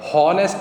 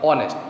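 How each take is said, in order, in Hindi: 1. शब्द h की आवाज़ से शुरू होता है। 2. शब्द स्वर की आवाज़ से शुरू होता है। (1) "हॉनेस्ट नहीं बोल रहे हम इसको, ह नहीं बोल रहे" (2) "इसको बोल रहे हैं ओ"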